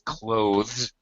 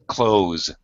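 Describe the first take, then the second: First: The th sound is clearly pronounced. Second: The th sound is dropped entirely. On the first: This is the technically correct form. "the way Salvatore pronounced it, is actually correct" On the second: This is how most native speakers say it. "most native speakers say close, close, just like close the door"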